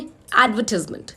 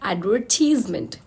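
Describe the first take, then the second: First: Said quickly with stress on the first part. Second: Said slowly with stress on the middle part. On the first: "हमने speed से बोला और बिल्कुल beginning के part पे stress दे दिया" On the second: "हम centre वाले पार्ट पे स्ट्रेस कर रहे हैं"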